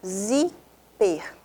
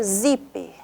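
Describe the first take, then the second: First: Zíper broken into ZÍ, pause, PER; split into syllables. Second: Said in the usual way. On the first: Shown as a demonstration. Teacher counting two syllables for pupils, zíper split as ZÍ, PER. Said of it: "então, duas sílabas". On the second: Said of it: "a penúltima sílaba é a sílaba tônica".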